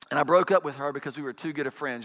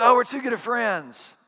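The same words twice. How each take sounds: First: Said in the usual way. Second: Higher, louder, slow mocking sing-song; mock cliché. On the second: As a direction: parrot the tired old excuse.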